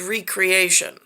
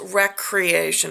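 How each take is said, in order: First: The first syllable is a long 'ree' sound. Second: The first syllable is a short 'reck' sound. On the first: Creating something again, restoring it. "underlying druidic text contextual resistance word that says recreation" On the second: Leisure and play. "the intonation says recreation"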